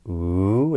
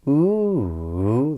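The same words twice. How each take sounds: First: The pitch rises steadily through the sound. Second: The pitch rises, then falls, then rises again. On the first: It marks a question or an item in a list. "a rising intonation pattern would be" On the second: It signals the talker has not finished yet. "this extra circumflex inflection, this ooh, this rise, fall, rise"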